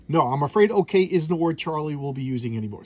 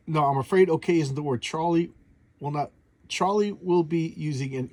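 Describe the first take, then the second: First: Said in the usual way. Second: Halting read that trips over the words; stumbling misread. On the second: Shown as a demonstration. Reading the comic caption aloud to viewers, tripping over the words. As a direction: stumble and restart mid-line, losing the place. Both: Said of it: "jeez, I can't even read".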